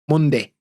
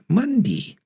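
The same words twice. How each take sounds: First: The final vowel is a clipped eh. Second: The final vowel is a long E. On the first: "we basically clip the end of the Y sound" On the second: "Rather than"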